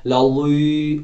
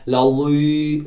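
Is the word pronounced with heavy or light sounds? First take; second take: heavy; heavy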